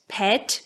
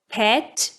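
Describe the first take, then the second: The two takes are said the same way.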